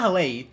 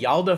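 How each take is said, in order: First: The name begins with an H sound. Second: The name begins with a Y sound. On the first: The speaker calls it wrong. "it's not Hale" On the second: The speaker calls it right. "the correct pronunciation"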